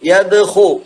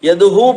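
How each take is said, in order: First: The middle consonant is a rasping kh sound. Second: The middle consonant is a light h sound. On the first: The speaker calls it right. "എന്ന് തന്നെ പറയണം" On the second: The speaker calls it wrong. "യദ്ഹു പോരാ"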